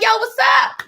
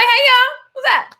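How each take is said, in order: First: High, easy hello to a band; retold casual yo to the band; casual greeting. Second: Much higher and louder cheery hello; a bright overeager call to the whole band; retold big friendly hey y'all; bubbly greeting. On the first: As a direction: toss out a breezy high greeting. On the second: Greets band again, bigger.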